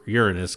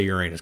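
First: Uranus said as "YOOR-uh-nus"; less funny pronunciation. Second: Uranus said as "your-AY-nus"; funny pronunciation. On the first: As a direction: stress the start of Uranus, swallow the middle. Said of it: "it's less funny". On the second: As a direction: make the middle of Uranus a stressed AY. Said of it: "I'm gonna say Uranus 'cause it's funny". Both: Shown as a demonstration.

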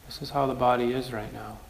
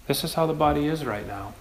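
First: "This is how the body is right now", softer and accepting; soft repeat. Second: Said in the usual way. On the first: Shown as a demonstration. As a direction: let it settle, gentler. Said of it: "repeated softer". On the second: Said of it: "said twice".

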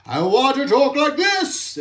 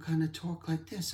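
First: Pitched way up and louder; squeaky demo voice; high voice. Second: Much softer, murmured demo; hushed contrast voice; low soft voice. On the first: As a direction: jump into a high, bright put-on voice. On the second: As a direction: drop to a quiet low murmur. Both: Shown as a demonstration.

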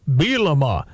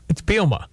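First: Bielema said in three syllables, Bee-eh-LEM-ah. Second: Bielema said as BEEL-mah, the middle 'e' dropped; two-syllable Bielema. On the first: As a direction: Bielema with every syllable spoken, the middle 'e' kept. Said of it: "apparently says it's three syllables". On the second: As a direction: Bielema clipped to two syllables, the second one silent. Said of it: "The second, he's a little silent". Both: Shown as a demonstration.

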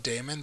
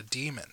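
First: DAEMON said DAY-mun; habitual pronunciation. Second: DEMON said DEE-mun; corrected pronunciation. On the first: Shown as a demonstration. Co-host gives their own usual way, DAEMON as DAY-mun. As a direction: say DAEMON with an ay in the first syllable. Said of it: "I've always called it daemon". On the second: Retold or imitated. Co-host quotes the correction they got, DEMON as DEE-mun. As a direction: say DEMON with a long ee up front. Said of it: "it's called a demon".

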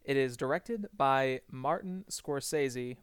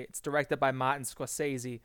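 First: Said in the usual way. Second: Boston accent, "Scorsese" said "Skaw-say-zee" with no r. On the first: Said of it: "or as I should say". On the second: Shown as a demonstration. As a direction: drop the r in "Scorsese", Boston style. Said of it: "that is all I will do of the Boston accent".

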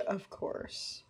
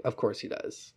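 First: Unvoiced, very soft; a hushed sarcastic echo; whispered sarcasm. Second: Unvoiced, dry aside; a hushed eye-roll; whispered sarcasm. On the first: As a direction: breathe it out dryly. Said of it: "He said". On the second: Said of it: "he's like".

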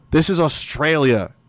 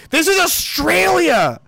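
First: Said in the usual way. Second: Much higher, slower, loud outburst on "This is Australia!"; "This is Australia!" shouted high and drawn out; exclaimed. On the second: Real, not acted. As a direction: cry out "This is Australia!" in disbelief.

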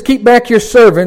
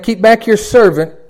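First: Loud, high pulpit proclamation; preacher reading the psalm aloud; proclaimed scripture. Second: Loud, high, slow, deliberate; drawn-out pulpit proclamation; proclaimed scripture. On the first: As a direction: ring the verse out. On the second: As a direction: repeat it slowly with weight. Repeats the psalm slower. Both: Acted.

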